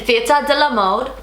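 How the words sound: It is said in a French accent. "I'm gonna try with a French accent"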